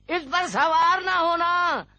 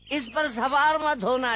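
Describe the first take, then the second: First: सवार stressed, higher and louder; firm repeated warning to not ride; insistent warning. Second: Said in the usual way. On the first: Acted. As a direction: press the warning about riding it. Old man repeats warning insistently.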